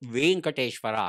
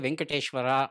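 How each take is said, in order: First: The vowel is said long. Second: The vowel is said short. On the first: The speaker calls it right. "ವ್ಯಾಕರಣಬದ್ಧವಾಗಿ ಹೇಳಬೇಕಾದ್ರೆ" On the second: The speaker calls it wrong. "ಅದು ತಪ್ಪದು"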